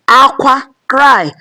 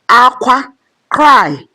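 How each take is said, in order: The two takes are said the same way.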